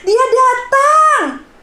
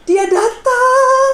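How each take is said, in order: First: It is said in a happy, joyful tone. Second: It is said in a frightening, ominous tone.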